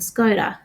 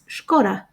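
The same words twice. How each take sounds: First: It is pronounced the usual Australian way. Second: It is pronounced the way the advert says it. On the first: "That's how we pronounce it in Australia" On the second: "the ad pronounces it as Skoda"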